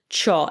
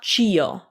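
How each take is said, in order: First: The i is silent, giving cho. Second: The i is sounded, giving chee-oh. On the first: The speaker calls it right. "it's just cho" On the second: The speaker calls it wrong. "It's not chio"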